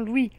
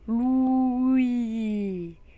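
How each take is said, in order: First: The name is pronounced in the plain standard way. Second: The name is pronounced in an odd, distorted way. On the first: This is how the name should be said. The speaker calls it right. "Prononcez tout simplement Louis" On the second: Someone else kept saying it this way. The speaker calls it wrong. "et non comme il n'a cessé de le répéter"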